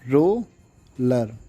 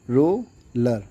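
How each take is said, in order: First: roller drawn out very slowly while writing; slow spelled-out word. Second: Said in the usual way. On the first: Shown as a demonstration. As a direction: stretch roller syllable by syllable, as if tracing each stroke. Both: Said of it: "तो roller कैसे?".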